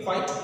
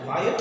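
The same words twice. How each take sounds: First: "quiet" pronounced KWITE, no middle vowel; quite, one syllable. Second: "quiet" with two clear vowels, kwy-et; quiet, two syllables. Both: Shown as a demonstration. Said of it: "There is a difference between quiet".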